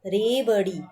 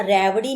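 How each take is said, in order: First: रेवड़ी with a clear closed "e" vowel, rayvri; teacher models the right रेवड़ी with a closed e; correct pronunciation. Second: रेवड़ी said with an open "ai" vowel, like rairvri; teacher shows the wrong रेवड़ी with an ai vowel; wrong vowel demo. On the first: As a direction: say रेवड़ी carefully with a pure e sound. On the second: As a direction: deliberately say रेवड़ी with a broad ai sound as the mistake. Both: Shown as a demonstration. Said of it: "ऐसे यहाँ रेवड़ी नहीं होगा".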